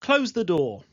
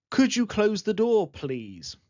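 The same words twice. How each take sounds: First: Blunt order; teacher modelling a bare command; direct command. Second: Softened, courteous ask; teacher modelling the polite version; polite request. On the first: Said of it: "these can sound very direct as imperatives". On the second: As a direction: make it a gentle request. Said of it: "write as polite requests". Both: Shown as a demonstration.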